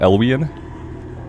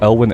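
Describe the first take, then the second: First: The name is said with three syllables. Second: The name is said with two syllables. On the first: The speaker calls it wrong. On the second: The speaker calls it right.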